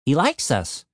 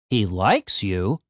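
First: Said in the usual way. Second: Slow, questioning stress on "likes"; incredulous echo. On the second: A narrator's reading. Frank doubts the vampire likes Tim, incredulous. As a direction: draw out "likes" in low disbelief.

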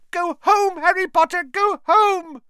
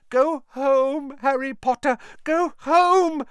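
First: Higher, louder elf plea; squealing house elf. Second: High elf plea, urgent; pleading house elf. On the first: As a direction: shriek at him to go home. Repeated plea. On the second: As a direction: beg him to go home. First plea. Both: Acted.

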